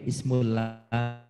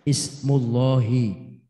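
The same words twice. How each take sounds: First: The 'lah' sound is light and thin. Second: The 'lah' sound is heavy and full. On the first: The speaker calls it wrong. "maka tidak mungkin ismullahi" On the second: The speaker calls it right. "nah mu itu harokat dhamma sebelum lafaz Allah"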